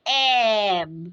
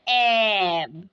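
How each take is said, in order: Both takes have the same delivery.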